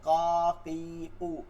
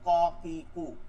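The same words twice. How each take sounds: First: The vowels are drawn out long. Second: The vowels are short and quick.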